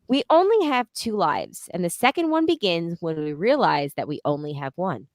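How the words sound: The sentence is read with lively, varied intonation. The speaker calls it right.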